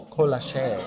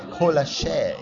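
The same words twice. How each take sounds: First: Colache said as koh-LAH-shay, stress on LAH. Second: Colache repeated as koh-LAH-shay. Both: Shown as a demonstration. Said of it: "this thing called colache".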